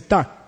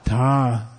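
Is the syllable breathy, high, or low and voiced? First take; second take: high; low. First: It is high in pitch and not voiced. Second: It is low in pitch with a buzzing throat. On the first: "it means high tone" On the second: "it means low tone voiced"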